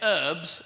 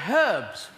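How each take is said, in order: First: It is said in an American accent. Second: It is said in a British accent.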